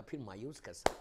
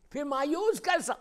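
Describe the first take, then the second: First: Said in the usual way. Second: High, loud challenge; ringing rhetorical question, voice raised; impassioned shout. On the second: Acted. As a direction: cry it out from the pulpit. Repeats question at full force.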